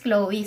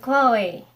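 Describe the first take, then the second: First: The name is pronounced the English way. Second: The name is pronounced the French way. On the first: "in English naman daw is" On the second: "sa French ito siya"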